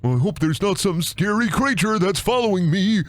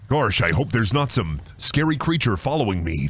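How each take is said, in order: First: Higher, put-on worried voice; mock fear. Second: Lower, put-on worried voice; low mock worry. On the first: Streamer making fun of horror game, mock fearful voice. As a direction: play the naive victim up high. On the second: Streamer making fun of horror game, low mock worry. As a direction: feign worry in a low register. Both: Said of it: "I'm making fun of this".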